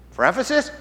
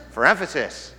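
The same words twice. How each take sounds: First: EMPHASIS lifted into a rising question. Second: EMPHASIS falling to a settled close; firm answer. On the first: Preacher voicing a listener querying the repeated verse, questioning. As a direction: ask it higher, voice rising on EMPHASIS. Acting out question, then its answer. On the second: Preacher answering for Jesus why He repeats it, matter-of-fact. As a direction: answer lower, dropping the pitch on EMPHASIS. Answers his own acted question. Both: Acted.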